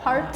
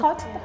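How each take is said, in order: First: The R is pronounced, American style. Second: The R is dropped, South African style.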